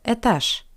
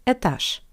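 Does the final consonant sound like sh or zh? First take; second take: sh; sh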